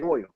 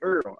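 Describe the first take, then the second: First: Oil is said without a New Orleans accent. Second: Oil is said with a New Orleans accent.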